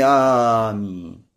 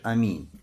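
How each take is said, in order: First: The first vowel is drawn out very long. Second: The first vowel is short and not held. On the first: The speaker calls it wrong. "Но никак не аминь" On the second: The speaker calls it right. "когда вообще не тянешь, а просто говоришь аминь"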